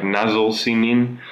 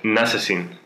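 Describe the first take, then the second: First: "Nasıl senin?" read slowly as written; slow spelled-out reading. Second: "Nasılsın?" run together as one word; one fluid word: "Nasılsın?"; Turkish as spoken. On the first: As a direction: read each word slowly off the page. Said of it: "I write it like". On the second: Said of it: "you pronounce it like". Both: Shown as a demonstration.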